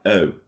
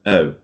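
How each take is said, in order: Both takes have the same delivery.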